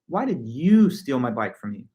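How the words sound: The strongest stress falls on the word you. "the em- emphasis is all placed on the word you"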